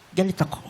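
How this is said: The voice sounds disappointed. "yung galit ka ng ah, disappointed?"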